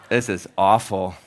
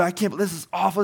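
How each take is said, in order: First: Said in the usual way. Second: Furious customer; imitating the customer's outrage; angry complaint. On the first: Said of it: "the cashier was like". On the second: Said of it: "And they're like".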